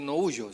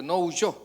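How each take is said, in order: First: "no huyo" stressed on the first syllable, HU-yo; wrong stress. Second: "no huyó" with the stress landing on the final ó, hu-YÓ; stress on the last O. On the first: Preacher shows the wrong stress on "huyo", first syllable. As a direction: say "huyo" with the weight on "hu", not on the final o. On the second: Preacher corrects the stress of "huyó" for the congregation, stressing the final o. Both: Shown as a demonstration. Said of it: "acento en la última O".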